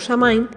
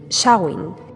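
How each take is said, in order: First: It is pronounced the Spanish way, as written. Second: It is pronounced the English way. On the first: This is how it is usually said in Spain. "es como normalmente se suele pronunciar aquí en España" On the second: This is the correct English pronunciation. "su pronunciación inglesa correcta es"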